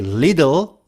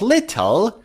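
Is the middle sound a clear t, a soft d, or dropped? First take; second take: soft d; clear t. First: The middle sound is a soft d. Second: The middle sound is a clear t. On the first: "native speakers would say little" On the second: "instead of little"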